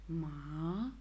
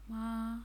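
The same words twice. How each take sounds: First: The pitch dips down, then rises. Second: The pitch stays level throughout. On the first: "the third tone goes down and up" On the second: "The simple tone, which is ma"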